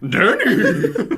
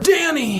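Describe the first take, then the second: First: It is said in a horse-like voice. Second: It is said in a normal voice.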